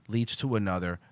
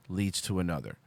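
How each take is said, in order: Both takes have the same delivery.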